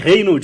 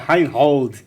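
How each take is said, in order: First: The name is said in a Portuguese way. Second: The name is said in a German way.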